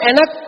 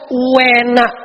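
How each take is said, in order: First: The word is said plainly with no added sound. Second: An emphatic u sound is added before the word. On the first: It tastes good. "Kalau enak tuh orang Jawa bilangnya enak" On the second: It tastes very good. "tapi kalau enak banget, uenak. Jadi u ada u-nya dulu"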